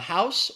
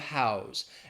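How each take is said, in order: First: The word ends with an S sound. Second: The word ends with a Z sound. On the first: It is used as a noun. "the noun, it's going to have the S sound" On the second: It is used as a verb. "If it's the verb, the Z"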